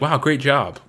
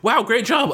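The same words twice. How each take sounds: First: The voice stays flat and monotone. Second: The voice sounds lively and excited. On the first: This is how the speaker sounds when talking in person. "in real life, I sound monotone most of the time" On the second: This is how the speaker comes across in text messages. "I seem more excited and happy in text"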